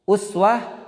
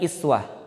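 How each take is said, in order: First: The word begins with a 'u' vowel. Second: The word begins with an 'i' vowel. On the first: "Kalau u itu domun" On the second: "Iswah itu kan menggunakan kasroh"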